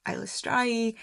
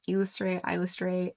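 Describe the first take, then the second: First: Eilistraee with last syllable rhyming with "eye"; Eilistraee pronounced "strai". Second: Eilistraee with a "stray" ending; mispronounced Eilistraee. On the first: Host correcting a common mispronunciation, Eilistraee said with "strai" ending. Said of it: "I believe she pronounces". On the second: Host citing common mistakes with the goddess's name, Eilistraee mispronounced as "stray". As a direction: say Eilistraee wrong, last syllable as "stray". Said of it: "a lot of people mispronounce her name as". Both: Shown as a demonstration.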